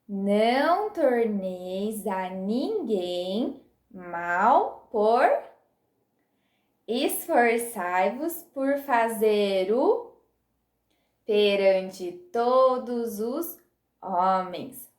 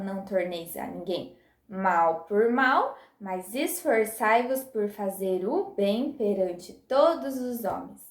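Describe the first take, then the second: First: The verse is recited very slowly. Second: The verse is recited at a normal pace.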